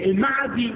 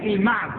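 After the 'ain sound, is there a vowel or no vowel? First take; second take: vowel; no vowel. First: The 'ain sound is followed by a short a. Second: The 'ain sound is followed by no vowel. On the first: "بفتح العين" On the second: "وتسكينها"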